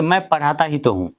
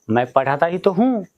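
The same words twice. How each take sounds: First: Said in the usual way. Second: "ही तो" pressed hard, "हूँ" held; emphatic stress. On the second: Shown as a demonstration. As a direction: insist with "ही तो" in "मैं पढ़ाता ही तो हूँ". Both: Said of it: "जोर दे के बोला जा रहा है".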